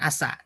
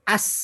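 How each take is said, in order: First: A vowel follows the s sound. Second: No vowel follows the s sound. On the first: The speaker calls it wrong. "Bukan asa" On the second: The speaker calls it right. "Yang betul as gitu ya"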